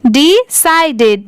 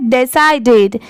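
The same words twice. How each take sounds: First: डिसाइडेड drawn out slowly, syllable by syllable; slow, careful pronunciation. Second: डिसाइडेड said with डि and साई; pronunciation model. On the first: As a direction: slowly stretch out डिसाइडेड for learners. (धीरे-धीरे डिसाइडेड) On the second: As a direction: say डिसाइडेड clearly, with साई in the middle. (सही उच्चारण डिसाइडेड) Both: Shown as a demonstration. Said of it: "पर इसको हम लोग क्या पढ़ते हैं?".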